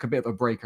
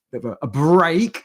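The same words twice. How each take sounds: First: Said in the usual way. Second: "break" set apart, louder and higher; air-quoted BREAK. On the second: Shown as a demonstration. Host doubting their moving week was a break, "break" loudly air-quoted. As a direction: put audible quote marks round "break". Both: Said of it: "doing air quotes".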